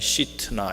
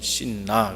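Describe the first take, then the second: First: The name is said with a t sound. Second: The name is said without a t sound. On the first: This is the original Hebrew reading. "히브리 사람들은 시트나 이렇게 읽습니다" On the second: This is the familiar English-style reading. "그냥 우리는 신나 그렇게 영어식으로 표현하고 발음을 그렇게 합니다만"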